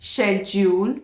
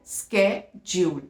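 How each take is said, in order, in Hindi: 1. यह शब्द sh ध्वनि से शुरू होता है। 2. यह शब्द sk ध्वनि से शुरू होता है। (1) "फर्स्ट ब्रिटिश इंग्लिश में ... श साउंड" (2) "इन अमेरिकन ... क का साउंड दे रहा है"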